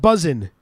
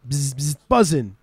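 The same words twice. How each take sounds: First: Said in the usual way. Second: Imitated bee buzz, then BUZZIN'; bee noise. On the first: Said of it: "the noise is optional". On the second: Shown as a demonstration. Host teaching the Welsh slang word, imitating a bee's buzz. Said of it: "make the noise".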